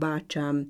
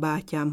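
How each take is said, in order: First: The middle consonant is a 'ch' sound. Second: The middle consonant is a soft 'ty' sound. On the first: This is the dialect form. "C-t, illetőleg G-t ejtenek" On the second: This is the standard form. "a köznyelvi T és G hangok helyett"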